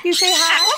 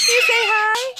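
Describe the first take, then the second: First: Said in the usual way. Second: Higher, rising sing-song question; coaxing pet talk. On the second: Real, not acted. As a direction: coax the bird to say hi.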